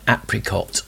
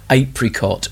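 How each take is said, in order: First: "apricot" starting AP, as in apple; short-A pronunciation. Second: "apricot" starting AY, as in ape; long-A pronunciation. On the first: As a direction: say "apricot" with a short A: AP-rih-cot. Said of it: "as they say in the song". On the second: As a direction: say "apricot" with a long A: AY-prih-cot. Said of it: "or as they say in the song". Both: Shown as a demonstration.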